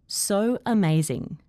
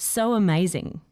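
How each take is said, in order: First: The words are said separately, one by one. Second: The words are joined by a gliding W sound. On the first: "I'll first say the words individually" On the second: "then with intrusion"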